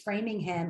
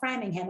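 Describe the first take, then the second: First: The first syllable sounds like 'fray'. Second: The first syllable sounds like 'fram'.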